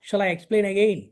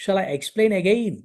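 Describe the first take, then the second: First: Said in the usual way. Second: Very slow, word by word English; slow teaching read. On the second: Shown as a demonstration. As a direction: spell it out slowly for learners. (నెమ్మదిగా, పదం పదంగా) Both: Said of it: "ఇంకా అర్థం కాలేదా? (phrase being taught)".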